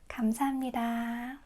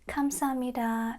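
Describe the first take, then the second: First: The first sound is a soft g. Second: The first sound is a hard k. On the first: The speaker calls it right. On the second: The speaker calls it wrong.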